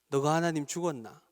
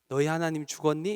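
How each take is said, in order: First: It is spoken in a Gyeongsang dialect accent. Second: It is spoken in standard Seoul Korean. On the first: "경상도 말로 이야기하신답니다" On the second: "이렇게 얘기하시지 않고"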